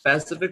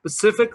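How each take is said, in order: First: पैसिफिक said with the initial s dropped; पैसिफिक starting on p with no s; wrong pacific. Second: स्पेसिफिक with the s kept at the start; स्पेसिफिक, s clearly heard before p; correct specific. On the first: Teacher showing the mistaken पैसिफिक to students. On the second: Teacher modelling स्पेसिफिक against the wrong पैसिफिक. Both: Shown as a demonstration. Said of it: "पैसिफिक question तो नहीं होता".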